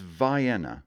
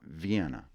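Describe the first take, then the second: First: It is said the local Maine way. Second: It is said the standard way. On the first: The speaker calls it right. "but it is Vienna" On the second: The speaker calls it wrong. "not Vienna"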